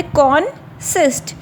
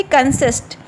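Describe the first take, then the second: First: "कॉन्सिस्ट" split as con, pause, sist; syllable by syllable. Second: Said in the usual way. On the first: Shown as a demonstration. Teacher counting syllables for students, "कॉन्सिस्ट" broken in two. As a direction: say "कॉन्सिस्ट" in two separate beats. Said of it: "अलग-अलग sound". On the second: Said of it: "उतने syllable होते हैं".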